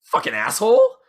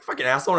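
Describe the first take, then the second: First: Angry curse. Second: Said in the usual way. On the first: Retold or imitated. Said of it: "the girl says". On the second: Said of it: "So she's like".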